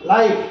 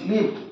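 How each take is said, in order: First: The vowel is a long 'eye' sound. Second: The vowel is a short 'ih' sound. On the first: It means broadcast in real time. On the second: It means to reside somewhere.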